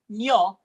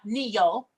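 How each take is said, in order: First: The vowels glide together into one syllable. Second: The vowels are split into two syllables. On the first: The speaker calls it right. "the elision is more of a nyo" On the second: The speaker calls it wrong. "not neo"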